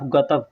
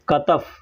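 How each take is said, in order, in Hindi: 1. शब्द 'katf' ग की आवाज़ से शुरू होता है। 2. शब्द 'katf' क की आवाज़ से शुरू होता है। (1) "कुछ लोग हैं जो गतफ गतफ कहते हैं" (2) "कंधा को कतफ कहते हैं"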